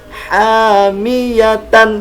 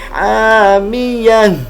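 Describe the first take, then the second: First: The word ends with a full 'tan' syllable. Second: The word ends with a silent-vowel 'h' sound. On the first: The reading continues without stopping. The speaker calls it wrong. "Jadi bukan dibaca dengan hamiyatan" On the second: The reader stops at the end of the verse. The speaker calls it right.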